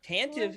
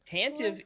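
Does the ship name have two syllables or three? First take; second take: two; two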